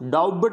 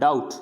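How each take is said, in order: First: A b sound is heard before the t. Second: No b sound is heard before the t. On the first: The speaker calls it wrong. "डाउट नहीं बोलना है" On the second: The speaker calls it right. "बी को pronounce नहीं करना है"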